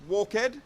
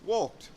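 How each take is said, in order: First: The word does not end in a T sound. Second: The word ends in a T sound. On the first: The speaker calls it wrong. "Not walked" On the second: The speaker calls it right. "then the ed is pronounced T"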